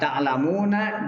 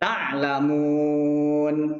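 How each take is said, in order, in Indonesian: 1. Kata itu diakhiri dengan bunyi vokal. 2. Kata itu diakhiri dengan konsonan mati. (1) "na-nya itu kan ada harkatnya fathah" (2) "dibaca wakaf, na-nya itu berarti dibaca sukun"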